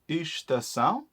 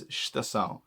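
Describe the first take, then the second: First: "estação" with its first E sounded, traditional Portuguese; traditional Portuguese accent. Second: "estação" with the first E cut, Algarvian style; Algarvian accent. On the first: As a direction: open "estação" on a clear vowel, as in traditional Portuguese. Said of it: "In the, in the traditional Portuguese accent". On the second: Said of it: "the E in the beginning of that word gets cut". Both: Shown as a demonstration.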